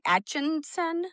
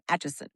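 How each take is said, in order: First: An extra n sound comes before the s. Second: No n sound comes before the s. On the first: The speaker calls it wrong. "some people will say, like, Atchinson or, like, with an extra N" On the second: The speaker calls it right. "No, ... but Atchison"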